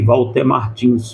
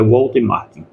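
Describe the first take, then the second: First: The surname ends with an s sound. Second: The surname ends without an s sound. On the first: The speaker calls it wrong. "Muitos chamam ele, até eu chamava também esses dias de Walter Martins" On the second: The speaker calls it right. "mas é Walter Martin"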